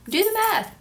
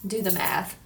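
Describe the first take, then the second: First: Higher, louder teasing repeat; playful emphatic. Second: Said in the usual way. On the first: Real, not acted. Vlogger teasing viewers to work out her age. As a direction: nudge viewers, go on, count it.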